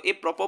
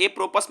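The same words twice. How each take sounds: First: ए प्रोपो ending in an open o; correct pronunciation. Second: ए प्रोपस with the final s sounded; wrong pronunciation. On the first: Teacher giving learners the right reading, ए प्रोपो with silent s. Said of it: "इसको ए प्रोपो पढ़ा जाता है". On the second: Teacher warning learners off a misreading, ए प्रोपस with final s voiced out. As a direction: end ए प्रोपस on a spoken "pus". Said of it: "ए प्रोपस मत पढ़िएगा". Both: Shown as a demonstration.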